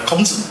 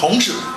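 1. 子是平舌音。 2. 子是翘舌音。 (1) "他没有翘舌的" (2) "就错了啊"

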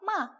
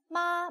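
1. 이 음절은 4성으로 발음됩니다. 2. 이 음절은 1성으로 발음됩니다. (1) "4성" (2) "1성"

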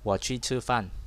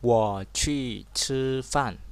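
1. Câu này được đọc nhẹ nhàng, bình thản và tự nhiên. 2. Câu này được đọc cẩn thận và có chủ đích.

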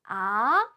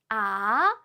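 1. 음 높이가 낮은 데서 높은 데로 올라갑니다. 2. 음 높이가 낮은 데서 높은 데로 올라갑니다.

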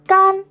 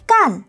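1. Âm tiết này có thanh ngang, giọng cao. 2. Âm tiết này có thanh huyền, giọng xuống nhanh. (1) "phát âm là can thành 1" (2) "phát âm là cản thành 4"

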